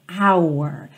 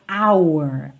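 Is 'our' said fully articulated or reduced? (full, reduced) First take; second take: full; full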